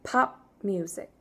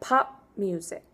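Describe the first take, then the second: The two takes are said the same way.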